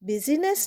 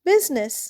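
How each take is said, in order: First: The middle i vowel is pronounced aloud. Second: The middle i vowel is left silent. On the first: The speaker calls it wrong. "বিজিনেস নয়" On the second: The speaker calls it right. "এখানে দেখো আইটা কিন্তু silent."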